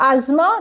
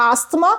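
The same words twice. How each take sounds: First: "asthma" said "AZ-ma", silent th; "asthma" as two smooth syllables, "az-ma"; correct pronunciation. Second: "asthma" said "AST-ma", with a t; "asthma" with a hard s-t before the m; wrong pronunciation. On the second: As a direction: sound the t in "asthma". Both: Shown as a demonstration. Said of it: "not asthma".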